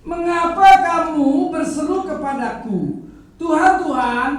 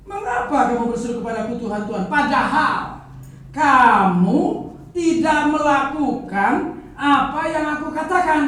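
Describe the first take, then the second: First: Loud preacher voicing Jesus' rebuke; loud reading of Jesus' words. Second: Loud and quick, pressing each phrase; quicker, driving repeat of the rebuke; fast loud rereading. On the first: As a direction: proclaim Jesus' challenge at full voice. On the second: Acted. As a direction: rattle off Jesus' rebuke with mounting force. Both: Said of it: "saya ulang ya, baca ya".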